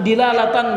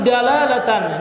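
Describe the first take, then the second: First: The first syllable has an 'i' vowel. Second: The first syllable has an 'a' vowel. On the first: "atau kasrah dal ya" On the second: "ini bisa dibaca dengan fathah ya, dal"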